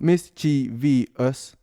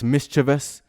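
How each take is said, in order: First: The word is said with four syllables. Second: The word is said with three syllables. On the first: The speaker calls it wrong. "four syllables" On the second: The speaker calls it right. "why is it coming with this mischievous?"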